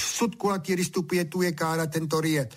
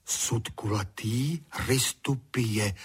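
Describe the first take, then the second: First: High, quick rattled-off recital; very briskly. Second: Slow, measured reciting; repeating to himself. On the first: Honzík answers every question with his Latin ditty, briskly. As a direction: rattle it off in one high run. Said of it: "říkal velmi z čerstva". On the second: Honzík repeats his new words to himself, reciting. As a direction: repeat it slowly, word by word, to memorise. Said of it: "opakoval si Honzík". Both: A narrator's reading.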